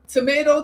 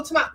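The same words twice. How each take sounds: First: "tomato" with an "ay" middle vowel; "tomato" rhyming with potato; American pronunciation. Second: "tomato" with an "ah" middle vowel; "tomato" cut short on a long "ah"; alternate pronunciation. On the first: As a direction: say "tomato" as to-MAY-to. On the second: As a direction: say "tomato" as to-MAH-to. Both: Shown as a demonstration. Demonstrates two pronunciations of tomato.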